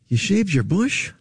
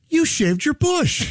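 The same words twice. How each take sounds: First: It sounds let down and disappointed. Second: It sounds excited and enthusiastic.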